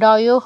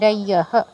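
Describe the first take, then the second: First: The ending has an 'o' vowel sound. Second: The ending has a 'ya' glide sound. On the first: The speaker calls it wrong. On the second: The speaker calls it right.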